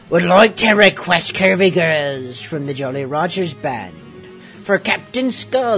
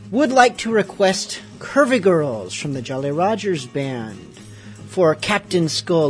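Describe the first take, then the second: First: It is read in a put-on pirate voice. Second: It is read in a normal voice.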